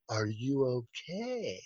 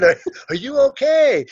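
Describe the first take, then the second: First: Very soft, slow, lower check-in; hushed concern. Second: High, exaggerated questioning; high-pitched checking. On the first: Retold or imitated. He goes over to the fallen man, hushed. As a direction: act out gently asking after someone collapsed. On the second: He asks the fallen man, high and exaggerated. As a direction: replay the question in a raised, put-on voice.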